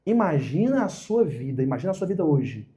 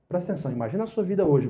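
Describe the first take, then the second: First: Guided imagining. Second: Quicker, pressing restatement; urging attention. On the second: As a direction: nudge them to really picture it. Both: Shown as a demonstration.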